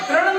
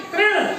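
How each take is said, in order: First: तृण misread as ta-ran; wrong "taran" reading. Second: तृण with tri in one syllable; corrected तृण, said as "trin". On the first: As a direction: put an a after the t in तृण, losing the ri. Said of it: "तरण उच्चारण नहीं होगा इसका". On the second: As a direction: ri straight after the t in तृण. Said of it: "री की मात्रा लगी हुई है". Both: Shown as a demonstration.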